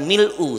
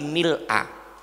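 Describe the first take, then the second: First: The word ends with an 'oo' vowel. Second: The word ends with an 'ah' vowel. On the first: The speaker calls it wrong. "bukan mil'u" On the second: The speaker calls it right. "tapi mil'a"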